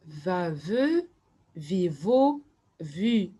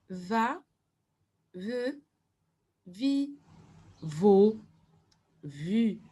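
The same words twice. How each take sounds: First: "Va, ve, vi, vo, vu" chanted in linked pairs with short gaps; syllables run together. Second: "va, ve, vi, vo, vu" one at a time, a clear pause after each; syllable by syllable. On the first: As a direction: read the row of syllables through in one go. (syllabes enchaînées, presque sans pause) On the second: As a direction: model each syllable separately for learners to repeat. (syllabe par syllabe, avec une pause après chacune) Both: Shown as a demonstration. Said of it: "les syllabes".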